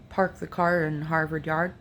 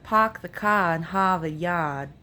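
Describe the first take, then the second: First: Said in the usual way. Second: "Park the car in Harvard Yard" as "Pahk the cah in Hahvahd Yahd", no R; r-dropping Boston accent. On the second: Shown as a demonstration. Vlogger comparing a Boston accent to Appalachian. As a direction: drop every R, Boston style, with broad "ah" vowels. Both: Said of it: "the Brooklyn accent says the A R sound".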